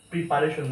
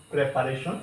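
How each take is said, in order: First: "প্রিপারেশন" starting with pree; "প্রিপারেশন" with i in the first syllable; mistaken pronunciation. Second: "প্রিপারেশন" starting with preh; "প্রিপারেশন" with e in the first syllable; correct pronunciation. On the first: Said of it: "প্রিপারেশন না". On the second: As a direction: say "প্রিপারেশন" as preh-pa-ray-shon. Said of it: "এখানে প্রে হবে". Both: Shown as a demonstration.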